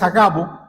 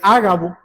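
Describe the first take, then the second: First: The stress is not on the first syllable. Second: The stress is on the first syllable. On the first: The speaker calls it wrong. "la pronunciación no es Agabo" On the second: The speaker calls it right. "la primera letra alfa lleva un acento"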